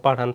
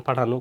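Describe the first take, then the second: First: Said in the usual way. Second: পাঠানো said as "pathano" with a rounded last vowel; teacher's model of পাঠানো ending in "no"; added o ending. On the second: Shown as a demonstration. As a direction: finish পাঠানো on a clear o. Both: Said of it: "উকারের মতো হবে".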